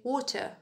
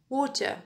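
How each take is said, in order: Both takes have the same delivery.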